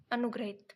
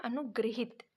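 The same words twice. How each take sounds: First: अनुग्रहित said as a-nu-gra-hit, with the ra sound; the common wrong reading अनुग्रहित, quick and matter-of-fact; wrong form shown. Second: अनुगृहित said with the vowel ri, a-nu-gri-hit; correct form shown. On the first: Teacher reading the wrong spelling aloud to students, plainly. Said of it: "यहाँ पे होगा अनुगृहित". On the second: Teacher giving students the correct word, plainly. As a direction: give अनुगृहित its ri vowel clearly. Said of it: "अनुग्रहित भी नहीं होगा". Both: Shown as a demonstration.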